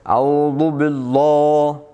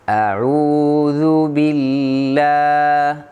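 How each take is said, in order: First: The vowel of bi is heavy and thick. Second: The vowel of bi is light and thin. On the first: The speaker calls it wrong. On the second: The speaker calls it right. "jadi suaranya enak"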